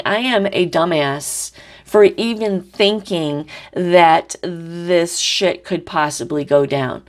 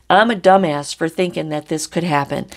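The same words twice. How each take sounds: First: Slow, weary self-scolding; a slow put-on voice of self-disgust; fed-up Taurus. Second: Said in the usual way. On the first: Reader voicing Taurus calling themself a dumbass, slow and weary. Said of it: "And now Taurus is saying". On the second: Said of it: "That's what Taurus is saying".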